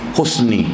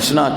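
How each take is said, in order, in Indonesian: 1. Kata ini berakhir dengan vokal 'i'. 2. Kata ini berakhir dengan vokal 'a'. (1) "tapi husni" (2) "bukan husna"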